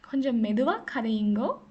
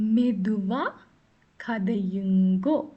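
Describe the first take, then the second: First: It is said at normal speed. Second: It is said very slowly.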